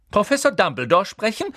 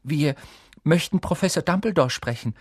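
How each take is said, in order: First: High, loud incredulous echo; sharp, distrustful question; suspicious. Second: Higher-pitched, boldly stated request; a touch of daring; rather bold. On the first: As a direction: repeat it as if something is fishy. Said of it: "als ob daran etwas faul wäre". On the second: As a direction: speak up bravely to a teacher. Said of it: "sagte Hermine recht kühn". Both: A narrator's reading.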